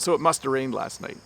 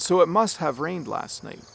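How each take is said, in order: First: It is said quickly with the words run together. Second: It is said at a careful, unhurried pace.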